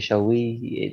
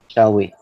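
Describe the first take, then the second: First: The stress is on "we". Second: The stress is on "shall".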